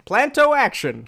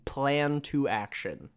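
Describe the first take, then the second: First: It is said fast, run together. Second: It is said slowly and clearly.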